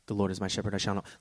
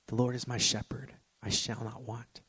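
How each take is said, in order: First: It is read quickly and rushed. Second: It is read slowly and calmly.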